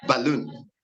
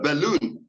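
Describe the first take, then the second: First: BAL wrongly stressed in "balloon"; stress on first syllable. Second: LOON stressed in "balloon"; stress on final syllable. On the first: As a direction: move the weight to the start of "balloon". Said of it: "not, uh". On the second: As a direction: put the weight on the end of "balloon". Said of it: "The final syllable of the word balloon takes stress". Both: Shown as a demonstration.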